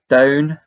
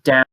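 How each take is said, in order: First: The vowel is said in a Scottish accent. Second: The vowel is said in a plain accent. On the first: "they say down" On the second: "instead of down"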